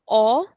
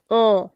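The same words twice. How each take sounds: First: Said in the usual way. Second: O nasalised, out through the nose; nasal vowel. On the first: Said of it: "o becomes o". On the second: Shown as a demonstration. Teacher demonstrates tilde accent, nasal o. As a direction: send o through your nose. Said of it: "nasal sound".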